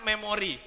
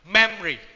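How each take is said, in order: First: All syllables are equally loud. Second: One syllable is louder than the others. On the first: "Kalau di Indonesia kan memori. ... Nggak ada, semua sama" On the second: "Tapi kalau mereka ada penekanannya, jadi memory"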